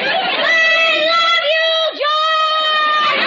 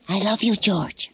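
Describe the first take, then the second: First: It is said loudly. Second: It is said quietly.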